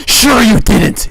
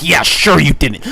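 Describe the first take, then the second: First: Higher, louder, slow drawn-out "Sure you didn't", stretching "Sure"; milk the repeat, hammed-up disbelief; exaggerated sarcasm. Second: Loud sarcastic "sure you didn't" with a falling tune. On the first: Friend repeating his scorn at the narrator, higher, louder and slow. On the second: Retold or imitated. Friend mocking narrator's excuse, loud and sarcastic. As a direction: throw "sure" back at him, scornful.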